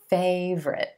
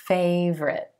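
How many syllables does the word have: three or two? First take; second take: two; two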